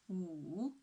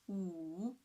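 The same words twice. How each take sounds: No difference in how they are said.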